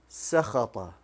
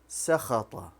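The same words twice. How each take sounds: First: The vowel after the middle consonant is 'a'. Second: The vowel after the middle consonant is 'a'.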